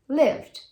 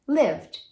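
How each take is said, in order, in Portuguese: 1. Você fala só o som de D. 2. Você fala só o som de D.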